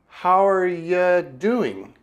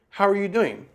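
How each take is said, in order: First: It is said slowly and deliberately. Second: It is said at a normal conversational speed.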